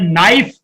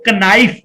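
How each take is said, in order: First: The word begins directly with an n sound. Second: The word begins with a k sound before n. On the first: The speaker calls it right. "लेकिन उस के को पढ़ा नहीं जाता" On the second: The speaker calls it wrong. "अगर उस के को पढ़ा जाता हो तो कनाइफ पढ़ा जाए"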